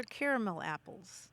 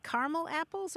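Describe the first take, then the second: First: Caramel apples as CARE-uh-mul apples; three-syllable caramel. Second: Caramel apples as CAR-mul apples; two-syllable caramel. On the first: Host offering caller the other choice, caramel as CARE-uh-mul. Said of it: "or caramel apples". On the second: Host offering caller a choice, caramel as CAR-mul. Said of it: "Do you eat". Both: Shown as a demonstration.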